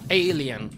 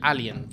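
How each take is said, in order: First: It is pronounced with English sounds. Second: It is pronounced with Spanish sounds, as spelled. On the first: This is the original English pronunciation. "si lo pronuncias en inglés, pues lo pronuncias como Alien" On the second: This is the customary name used in Spain. "en España de toda la vida se llama Alien"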